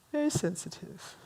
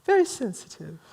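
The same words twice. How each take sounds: First: Very soft, dropped-away repeat; hushed aside. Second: Said in the usual way. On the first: Real, not acted. Speaker confides about romantics being hurt, hushed. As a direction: say it again far more softly.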